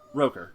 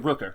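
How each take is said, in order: First: The vowel sounds like 'oh', as in 'poker'. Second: The vowel sounds like 'oo', as in 'took'. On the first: The speaker calls it wrong. "I've always pronounced it Roker" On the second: The speaker calls it right. "Okay, Rooker. Got it"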